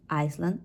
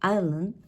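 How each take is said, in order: First: Iceland with a clear S; S sounded. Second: Island with the S left out; silent S. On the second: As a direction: say "Island" with no S sound. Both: Shown as a demonstration. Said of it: "adding there an S".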